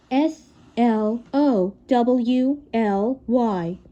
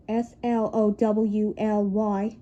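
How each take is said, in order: First: Letters said one by one, very slow; slow spelled-out letters; spelled slowly. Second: Very slow, each letter apart; slow deliberate spelling; spelled slowly. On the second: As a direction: drag it out letter by letter. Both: Shown as a demonstration. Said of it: "spells slowly".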